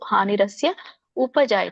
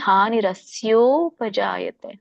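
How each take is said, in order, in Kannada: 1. ಕೊನೆಯ ಪದವನ್ನು ಬೇರೆಯಾಗಿ ಹೇಳ್ತಾರೆ, ಕೂಡಿಸಲ್ಲ. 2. ಪದಗಳು ಕೂಡಿ ಒಂದೇ ಪದ ಆಗ್ತವೆ. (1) "ಕೂಡಿ ಹೇಳಲಿಕ್ಕೆ ಆಗದೆ ಇದ್ದವರು ಹಾನಿ ಹಾನಿರಸ್ಯ ಉಪಜಾಯತೆ ಅಂತ ಹೇಳ್ಬೋದು" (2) "ಕೂಡಿ ಹೇಳಲಿಕ್ಕೆ"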